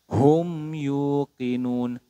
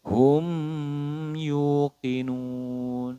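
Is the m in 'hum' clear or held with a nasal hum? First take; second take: clear; nasal hum. First: The m is pronounced clearly without a nasal hum. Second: The m is prolonged with a nasal hum. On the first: The speaker calls it right. "dibaca jelas mim sukunnya tanpa dengung" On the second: The speaker calls it wrong. "Tidak boleh"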